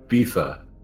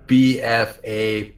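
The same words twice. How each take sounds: First: It is pronounced as a single word. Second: It is spelled out as three separate letters. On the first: The speaker calls it wrong. "or if you're toasty" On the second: The speaker calls it right. "say the letters properly"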